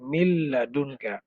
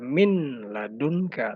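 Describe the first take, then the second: First: The n merges into the following l sound. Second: The first word ends in a clear n sound. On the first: "nunnya itu dilebur ke dalam lam jadi mil ladunka" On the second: "Harusnya kan dibaca min ladunka"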